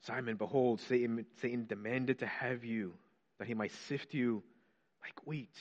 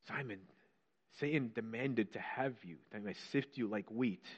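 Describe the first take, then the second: First: Softer, then like wheat whispered; hushed quote fading to whisper. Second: Softer, grave reading of Jesus's words; quiet quoting. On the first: Preacher repeating Jesus's warning to Simon, fading to a whisper. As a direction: let it sink to a whisper on like wheat. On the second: Preacher quoting Jesus to Simon, hushed and grave. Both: Acted.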